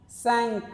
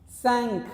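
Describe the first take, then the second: The two takes are said the same way.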